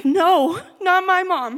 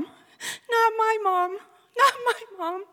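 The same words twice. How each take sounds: First: High, loud anguished yell. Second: Slow, high sobbing plea; crying. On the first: Daughter yelling as she hears her mom died. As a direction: cry out no against the news. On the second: Daughter sobbing after hearing her mom died. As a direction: break down sobbing the words. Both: Retold or imitated. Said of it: "I begin yelling over and over again".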